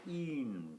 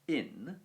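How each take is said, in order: First: The vowel is said long. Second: The vowel is said short. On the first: "it kind of lengthens it. So we get in foro" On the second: "the word for in is in"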